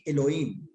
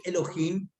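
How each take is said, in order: First: Elohim with the h left silent, e-lo-IM. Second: Elohim with the h said as a Spanish jota, harsh throat sound, e-lo-JIM. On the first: Teacher contrasting two spellings of Elohim for students, silent h. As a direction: drop the h in Elohim and glide the vowels. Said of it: "cuando utilizo la H". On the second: Teacher contrasting two spellings of Elohim for students, jota sound. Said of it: "cuando hablo Elohim con J". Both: Shown as a demonstration.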